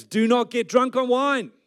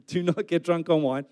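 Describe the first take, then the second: First: High, loud, slow command; proclaimed scripture. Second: Said in the usual way. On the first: Acted. Preacher reading Paul's command to the church, proclaimed scripture. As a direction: declaim it slowly from the pulpit.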